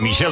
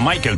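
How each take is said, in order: First: The name is said the French way. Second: The name is said the English way. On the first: The speaker calls it right. "sería así como habría que pronunciar su nombre" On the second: The speaker calls it wrong. "no Michael"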